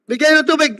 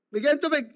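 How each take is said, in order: First: Said in the usual way. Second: Much softer, said almost to himself; quiet repeated request for water. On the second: Real, not acted. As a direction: drop the voice to a soft aside. Repeats request more softly.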